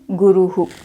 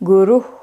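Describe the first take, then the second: First: The breath is followed by an echoed vowel. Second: The word ends in a plain breath. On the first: This makes the final sound clear to listeners. "sometimes you have to say it like" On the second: This is the actual pronunciation. "the correct and actual pronunciation of Visarga is ah"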